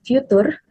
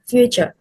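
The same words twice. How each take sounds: First: Future with a hard t, fyoo-TOOR; mispronounced. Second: Future with a ch, FYOO-cher; correct pronunciation. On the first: Retold or imitated. Teacher copying the student's future, mispronounced. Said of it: "mispronounced as future". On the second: Shown as a demonstration. Teacher correcting the word future, correctly pronounced. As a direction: soften the t of future to ch. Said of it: "should be".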